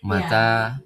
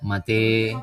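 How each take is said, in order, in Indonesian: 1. Vokal akhirnya a terbuka biasa. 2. Vokal akhirnya condong ke e. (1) "seperti kata mata" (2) "dibaca mate"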